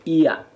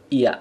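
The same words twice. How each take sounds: First: Iya with the sound pressed and rising at the end. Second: Iya without the pressed sound, as the wrong version. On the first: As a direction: press iya hard and let it rise. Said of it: "Ditekan ya". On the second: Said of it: "bukan iya". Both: Shown as a demonstration.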